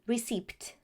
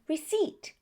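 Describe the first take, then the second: First: A P sound is pronounced before the T. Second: The P is silent before the T. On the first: The speaker calls it wrong. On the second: The speaker calls it right. "we only pronounce the letter T"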